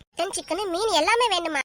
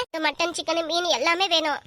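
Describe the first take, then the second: First: Incredulous echo. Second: Firm demand. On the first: Host echoes the costly feast demand, incredulous question. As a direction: repeat the demand back in disbelief. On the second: Friend demands dishes for the feast, firm listing. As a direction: list ending on a falling tone. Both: Acted.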